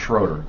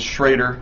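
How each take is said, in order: First: The first vowel sounds like 'oh'. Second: The first vowel sounds like 'ay'. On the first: The speaker calls it wrong. "not Schroeder" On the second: The speaker calls it right. "it's Schrader"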